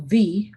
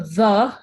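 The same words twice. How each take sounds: First: "the" as the alternative pronunciation, a bit louder; now say "the" the other accepted way; second way of saying the. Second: "the" said slowly and drawn out, teacher modelling one pronunciation; first way of saying the. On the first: Teacher gives students the second option for "the", a bit louder. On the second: Teacher shows students one way to say "the", slowly and clearly. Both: Shown as a demonstration. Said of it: "cualquier pronunciación que quieran utilizar".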